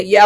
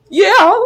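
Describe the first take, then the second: First: Said in the usual way. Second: High, cracking yes on the edge of sobs; hammed-up weepy answer; mock tearful. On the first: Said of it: "I was gonna say". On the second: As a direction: act out failing to hold back tears. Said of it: "burst out".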